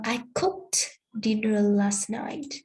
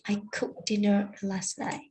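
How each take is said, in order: First: The t ending of cooked is clearly pronounced. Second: The t ending of cooked is dropped.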